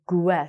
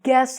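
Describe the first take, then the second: First: A U sound is heard after the G. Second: No U sound is heard after the G. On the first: The speaker calls it wrong. "I don't say guess" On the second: The speaker calls it right. "I can say"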